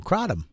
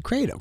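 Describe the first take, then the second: First: Kratom said as CRAH-dum; "ah" pronunciation. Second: Kratom said as CRAY-dum; "ay" pronunciation. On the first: Shown as a demonstration. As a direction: give Kratom an open "ah" vowel. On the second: Retold or imitated. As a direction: give Kratom a long "ay" vowel. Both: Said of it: "I think he said Kratom".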